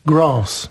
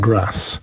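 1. Jest wymawiane z brytyjskim akcentem RP. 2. Jest wymawiane z akcentem amerykańskim. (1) "taka wymowa królowej. Grass, na przykład" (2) "a nie ten grass"

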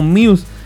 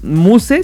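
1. Se dice con la pronunciación inglesa. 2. Se lee letra por letra, al estilo español. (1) "con la pronunciación precisamente del inglés" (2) "si no sabes inglés"

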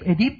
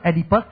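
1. Tên này được đọc theo kiểu tiếng Pháp, đuôi ngắn. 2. Tên này được đọc theo kiểu tiếng Anh, với đuôi -us. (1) "người nào của ven quen tiếng Pháp cũng gọi này là Oedip" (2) "cái người kia gọi là Oedipus"

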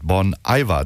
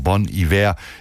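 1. Iver wird nicht wie französisch hiver ausgesprochen. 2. Iver wird wie französisch hiver ausgesprochen. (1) "immer hier falsch ausgesprochen habe, nämlich mit Bon Iver" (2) "dieses Iver ist entlehnt aus dem französischen Hiver"

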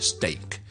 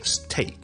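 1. 这个 t 很轻，没有气流。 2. 这个 t 有很强的气流。

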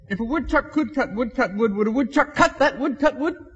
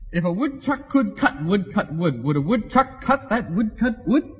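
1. 它是以正常、较快的语速说的。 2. 它是以较慢的语速说的。

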